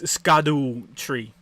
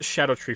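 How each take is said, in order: First: The name begins with a hard 'sk' sound. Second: The name begins with a soft 'sh' sound. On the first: It is read the way it is spelled. "That's how it's spelled" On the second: It is the official pronunciation. "It's pronounced"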